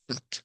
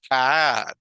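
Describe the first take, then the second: First: The vowel is clipped short. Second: The vowel is drawn out long. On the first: The speaker calls it right. "Sino cat. Es como que un golpe de voz nada más" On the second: The speaker calls it wrong. "No es cat"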